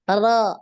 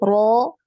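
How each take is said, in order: First: The lower lip stays still, giving an unrounded sound. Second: The lower lip rises, giving a rounded sound. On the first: The speaker calls it right. "yang kedua tadi tidak tidak naik ya, tidak digerakkan" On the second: The speaker calls it wrong. "yang pertama tadi dia naik ya, eee, bibir bawahnya"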